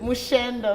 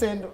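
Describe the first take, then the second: First: The middle consonant is a 'sh' sound. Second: The middle consonant is an 's' sound. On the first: The speaker calls it right. "it's Mushendo, the correct pronunciation" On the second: The speaker calls it wrong.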